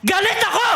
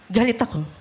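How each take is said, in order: First: The voice sounds truly angry. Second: The voice sounds sarcastic. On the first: "yung galit ako ng galit ka talaga?" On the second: "yung galit ako ng sarcastic?"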